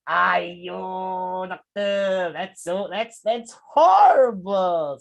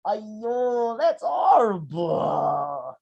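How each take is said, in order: First: Slow, drawn-out mock dismay with a smile; smiling fake sympathy. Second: Slow, sorrowful, crying tone; sad voice. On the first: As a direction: say it sad but grin through it. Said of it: "said the student smilingly". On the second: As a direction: mourn it slowly, sad face. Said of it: "even though your voice is sad". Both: Shown as a demonstration.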